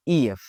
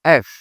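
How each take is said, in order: First: "ই এফ" broken into vowel, then F; vowel sounded separately before the F in "ই এফ"; split letter name. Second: "এফ" said as one short syllable; "এফ" pronounced whole, as a single letter name; joined letter name. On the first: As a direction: sound out "ই এফ" in two parts. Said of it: "এরকম উচ্চারণ করতে আসলে". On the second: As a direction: run vowel and F together in "এফ". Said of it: "এটার উচ্চারণ আসলে কি?". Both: Shown as a demonstration.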